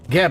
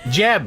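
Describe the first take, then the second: First: The name begins with a hard G sound. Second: The name begins with a soft J sound.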